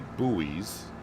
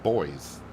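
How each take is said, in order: First: The word is said the common American way. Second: The word is said to sound like boys. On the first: "here in the States, for the most part, we say buoys" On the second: "I would presume you pronounce it boys"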